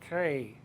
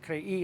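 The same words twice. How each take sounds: First: The vowels glide together as one syllable. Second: The vowels are split into two syllables. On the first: The speaker calls it wrong. "instead of crei" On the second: The speaker calls it right. "it makes it crei"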